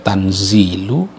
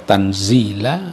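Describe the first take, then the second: First: The word ends in a 'u' vowel. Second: The word ends in an 'a' vowel. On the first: "bisa dibaca tanzilu" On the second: "bisa dibaca tanzila"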